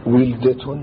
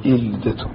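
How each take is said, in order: First: ولدة opening on a w sound; waw kept. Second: إلدة opening on a glottal stop and i; initial hamza. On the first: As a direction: say ولدة as wil-da. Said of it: "الواو المكسورة". (ولدة بالواو المكسورة) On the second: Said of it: "يجوز أن تقول فيها". (إلدة بهمزة مكسورة) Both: Shown as a demonstration.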